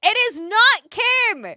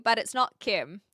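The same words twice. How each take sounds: First: It is NOT Kim, NOT punched high and loud; loud, higher insistence on not; emphatic denial. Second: Said in the usual way. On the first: Real, not acted. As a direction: slam the word not. Insisting on the point.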